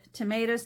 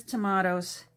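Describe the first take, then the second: First: "Tomatoes" said tuh-MAY-doze with a long ay. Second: "tomatoes" said tuh-MAH-toes with a broad ah. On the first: Playful contrast of two ways to say "Tomatoes", ay version. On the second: Playful contrast of two ways to say "tomatoes", ah version. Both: Shown as a demonstration. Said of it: "you know what? tomatoes, tomatoes".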